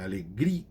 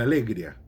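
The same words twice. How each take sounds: First: "alegria" com tônica no I, a-le-GRI-a; tônica certa. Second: "alegria" sem o hiato, tônica fora do I; tônica errada. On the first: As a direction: diga "alegria" forte no GRI. ("alegria" correto, com hiato no I) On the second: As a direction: diga "alegria" errado, juntando o I e o A. ("alegria" pronunciado como erro) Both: Shown as a demonstration. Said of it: "a tonificação tá na penúltima".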